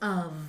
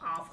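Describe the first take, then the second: First: It has a weak vowel and ends in v. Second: It is said like off, ending in f. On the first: The speaker calls it right. "Đây là âm ơ trong tiếng Anh và chữ vờ" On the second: The speaker calls it wrong. "Trong tiếng Việt người ta sẽ đọc là âm này âm off đúng không? Không có off"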